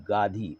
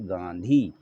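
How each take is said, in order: First: गाधी with a plain oral first vowel; without nasal. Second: गांधी with a clear n before dhee; with nasal. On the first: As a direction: say गाधी as gaa-dhee, no n. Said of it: "ऊपर बिंदी लगा दें". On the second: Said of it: "तो बन जाता है गांधी". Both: Shown as a demonstration.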